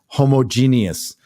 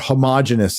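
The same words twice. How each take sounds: First: The word is said the non-American way. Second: The word is said the American way. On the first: "as he says" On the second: "as we ugly Americans say"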